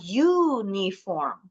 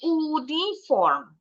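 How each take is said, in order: First: The word starts with a y sound. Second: The word starts with a plain vowel sound. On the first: The speaker calls it right. "Bacanya uniform. Jadi sebenarnya berawalan bunyi huruf Y" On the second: The speaker calls it wrong. "Tapi bacanya bukan uniform"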